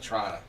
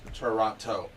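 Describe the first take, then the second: First: The T sounds are dropped or softened. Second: Every T sound is clearly pronounced. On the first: This is how locals say it. "People local will be like" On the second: This is how visitors say it. "they'll enunciate the T's"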